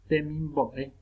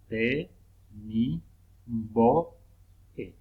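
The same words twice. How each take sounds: First: Said in the usual way. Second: "te, mi, bo, e" with a pause between syllables. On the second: Shown as a demonstration. Teacher showing syllable division, "te, mi, bo, e" syllable by syllable. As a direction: split "te, mi, bo, e" into separate beats. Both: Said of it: "al separar en sílaba".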